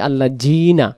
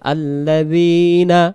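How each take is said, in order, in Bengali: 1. মাঝের ব্যঞ্জনটি শক্ত j-এর মতো শোনায়। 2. মাঝের ব্যঞ্জনটি জিভের আগার নরম z। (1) "জাল অক্ষরটার পরিবর্তে জিম অক্ষর আসতে পারে" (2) "জিহ্বার আগা থেকে নরম করে পড়তে হয়"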